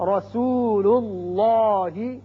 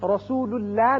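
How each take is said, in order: First: The L is said heavy and full-mouthed. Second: The L is said light and thin. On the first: The speaker calls it right. "बल्कि लामपुर होगा" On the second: The speaker calls it wrong. "रसूलुल्लाह नहीं पढ़ना"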